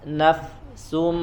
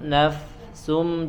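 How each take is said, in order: The two takes are said the same way.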